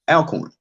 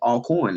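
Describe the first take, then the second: First: The first syllable rhymes with 'pal'. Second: The first syllable rhymes with 'ball'. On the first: The speaker calls it wrong. "and not Alcorn" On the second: The speaker calls it right. "you say all. So it's all corn"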